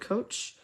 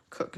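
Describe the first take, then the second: First: The name ends with a ch sound. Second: The name has a short oo vowel. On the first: "I said cook and coach" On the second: "Or is your last name pronounced Cook?"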